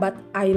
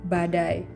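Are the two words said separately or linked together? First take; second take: separately; linked. First: The two words are said separately. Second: The two words run together as one. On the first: The speaker calls it wrong. "bukan but I lagi pelafalannya" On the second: The speaker calls it right. "tapi badai gitu kan"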